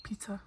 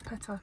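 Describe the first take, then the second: First: PITA with a long "ee", as in "peeta"; first pronunciation option. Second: PITA with a short vowel, as in "petta"; second pronunciation option. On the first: Friend answers how to say pita, long-ee pronunciation. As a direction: say "Pita" as PEE-ta, quietly. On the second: Friend offers the other way to say pita, short-vowel pronunciation. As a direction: say "Pita" as PET-ta, quietly. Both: Shown as a demonstration. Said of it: "is it pita or pita".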